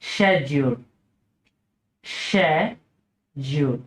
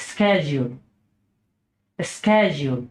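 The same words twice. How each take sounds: First: British schedule as SHED-yool, lower, slow; British pronunciation. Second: American schedule as SKED-jool; American pronunciation. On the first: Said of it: "British উচ্চারণ হচ্ছে". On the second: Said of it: "American উচ্চারণ হচ্ছে". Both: Shown as a demonstration.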